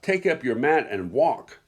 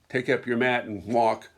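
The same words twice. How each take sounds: First: It is said in a forceful, commanding voice. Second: It is said in a normal, calm voice. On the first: It is an order meant to jolt the listener. "I hear Jesus using a commanding voice" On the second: It is a simple instruction. "I don't hear Jesus using a normal voice"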